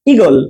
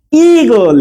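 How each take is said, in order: First: ইগল with a brief first vowel; short vowel. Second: ইগল with the first vowel drawn out; long vowel. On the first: Teacher showing the new spelling, ইগল with a short first vowel. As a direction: say ইগল quickly, opening "i" not stretched. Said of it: "বেশি দীর্ঘ হবে না". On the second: Teacher showing the old spelling, ইগল with a long first vowel. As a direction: stretch the opening "ee" of ইগল. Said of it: "দীর্ঘই ছিল". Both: Shown as a demonstration.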